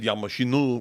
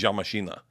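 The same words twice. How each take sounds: First: "Я машину" ending in an "oo"; mistaken Russian ending. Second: "Я машина" ending in an open "ah"; intended Russian ending. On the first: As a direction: say "машину" with final -u. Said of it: "But I said". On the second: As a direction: say "машина" with final -a. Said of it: "I meant to say". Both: Shown as a demonstration.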